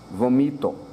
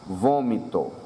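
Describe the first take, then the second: First: The stress is on the second syllable. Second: The stress is on the first syllable. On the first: The speaker calls it wrong. "Se não tivéssemos acento, leríamos vomito" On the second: The speaker calls it right. "Com acento circunflexo fica vom, vômito, indicando que essa é a sílaba tônica"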